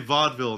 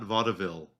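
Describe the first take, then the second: First: The middle e syllable is left out. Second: The middle e syllable is clearly sounded. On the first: "I just say vaudeville" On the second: "not vaudeville"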